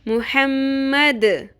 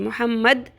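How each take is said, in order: First: The final d is released with a bouncing echo. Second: The final d stops flat without an echo. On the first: The speaker calls it right. "कलकला, अपने मखरज से हिलाएंगे" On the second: The speaker calls it wrong. "मुहम्मद नहीं पढ़ना"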